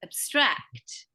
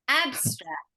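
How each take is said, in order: First: The stress is on the second syllable. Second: The stress is on the first syllable.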